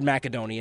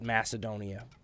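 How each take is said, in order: First: The c is said as a hard k sound. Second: The c is said as a soft s sound. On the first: This is the proper original name. The speaker calls it right. "the proper pronunciation is with a hard C" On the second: This is the usual Western name. The speaker calls it wrong. "we in the West have come to call it Macedonia"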